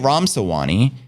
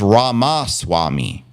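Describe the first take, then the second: First: The name is pronounced as Ramsawani. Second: The name is pronounced as Ramaswamy. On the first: The speaker calls it wrong. "I say Ramsawani" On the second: The speaker calls it right. "you're saying it's Ramaswamy"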